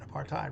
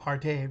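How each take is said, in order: First: The last syllable rhymes with white. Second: The last syllable rhymes with hate. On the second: "apartheid rhymes with hate"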